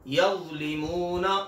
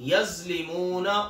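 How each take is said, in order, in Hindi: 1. यह व्यंजन बिना सीटी जैसी सिसकी के बोला जाता है। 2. यह व्यंजन सीटी जैसी सिसकी के साथ बोला जाता है।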